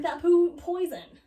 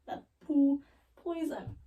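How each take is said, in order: First: "poo poison" loud, with POO punched; "poo poison" thrown out loudly at normal pace; punched punchline. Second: "poo poison" drawn out slowly in separate words; slow deliberate repeat. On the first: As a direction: hit "poo" hard and high as a joke. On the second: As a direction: pause round "poo" before "poison". Repeats punchline for effect. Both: Real, not acted.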